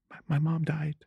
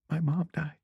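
First: High, hushed mock-tearful voice; fake crying. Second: Small, high, feigned tearful voice; fake crying. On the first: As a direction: quietly pretend to cry through it. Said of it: "which involved me crying". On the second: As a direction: repeat it softly through put-on tears. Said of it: "So I started crying".

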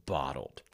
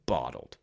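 First: Bottled whispered on a falling tune; whispering. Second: Said in the usual way. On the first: Acted. Keeping feelings hidden.

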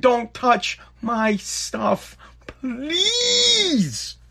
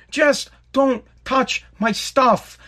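First: Slow, then a high fake-crying please; mock crying plea. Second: Just don't touch my stuff drawn out slowly, every word stressed; slow begging over his stuff; slow pleading. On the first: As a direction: beg with a hammed-up whimper. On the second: Real, not acted. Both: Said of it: "I'm begging".

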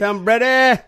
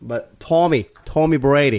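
First: Mock Boston accent. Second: Put-on better Boston accent. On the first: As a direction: overdo the Boston twang on "Tom Brady", pitched way up. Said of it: "I don't even know what I was doing". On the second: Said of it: "Is that better?".

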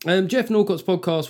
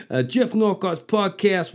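First: Said in the usual way. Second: Mock New York mobster, drawn out slow; half-hearted gangster accent on a podcast name; Goodfellas gangster voice. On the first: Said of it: "That didn't even sound like a rapper". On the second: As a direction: read it like a wiseguy out of Goodfellas. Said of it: "sounded like somebody out of fucking Goodfellas".

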